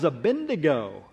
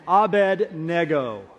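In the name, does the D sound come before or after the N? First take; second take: after; before. First: The N sound comes before the D sound. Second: The D sound comes before the N sound. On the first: The speaker calls it wrong. "I think my parents inverted the D and the N" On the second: The speaker calls it right. "He mispronounced that. No, I didn't"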